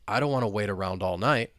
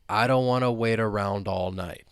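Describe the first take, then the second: First: The sentence is spoken at a moderate speed. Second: The sentence is spoken slowly. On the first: "Now let's speed it up a little bit" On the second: "let's say it slowly to begin with"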